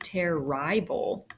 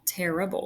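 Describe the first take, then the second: First: The middle vowel is said long. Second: The middle vowel is said short. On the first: The speaker calls it wrong. "we don't say terrible" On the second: The speaker calls it right. "It's a short vowel"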